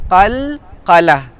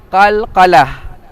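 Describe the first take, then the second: No difference in how they are said.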